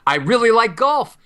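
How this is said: The melody goes up.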